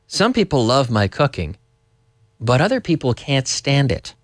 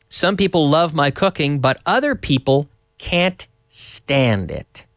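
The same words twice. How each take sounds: First: It is said faster, with words run together. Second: It is said at a normal, unhurried speed.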